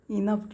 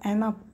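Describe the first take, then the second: First: The first vowel sounds like 'in'. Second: The first vowel sounds like 'en'. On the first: "इनफ किंवा" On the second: "एनफ पण म्हटलं जातं"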